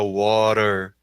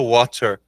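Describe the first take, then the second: First: The middle t sounds like a light r. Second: The middle t is a clear t sound. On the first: Americans say it this way. The speaker calls it right. "ele fala water" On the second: Americans do not say it this way. The speaker calls it wrong. "O americano ele não fala water"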